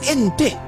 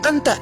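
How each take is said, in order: First: The vowels are pronounced as an E sound. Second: The vowels are pronounced as an open A.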